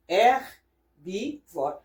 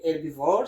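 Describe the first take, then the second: First: "herbivore" slowly, broken into three separate syllables. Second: Said in the usual way. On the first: Shown as a demonstration. Teacher showing learners how herbivore is read, slow and segmented. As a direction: pause between each syllable of "herbivore". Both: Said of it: "So herbivore".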